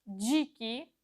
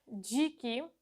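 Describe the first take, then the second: Both takes have the same delivery.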